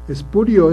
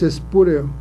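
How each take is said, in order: First: The word ends with an 'io' sound. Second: The word ends with an 'eo' sound. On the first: The speaker calls it right. "lo correcto, aunque parezca raro, es espurio" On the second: The speaker calls it wrong. "se dice el cargo que ocupa es espúreo. Y no"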